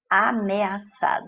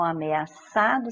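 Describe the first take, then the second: First: AMEAÇADO slowly as a - me - a - ça - do; syllable-by-syllable. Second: Said in the usual way. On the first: Shown as a demonstration. Teacher separating syllables for students, Ameaçado said slowly piece by piece. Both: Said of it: "separando a sílaba".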